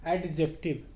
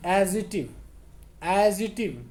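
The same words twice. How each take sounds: First: एडजेक्टिव said the common way, ed-jek-tiv; the usual Indian school say of एडजेक्टिव; wrong pronunciation. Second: एडिजेक्टिव said carefully as ed-ji-tiv; correct pronunciation. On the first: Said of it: "एडजेक्टिव ये गलत है". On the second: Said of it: "इसको हम एडिजेक्टिव बोलते हैं". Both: Shown as a demonstration.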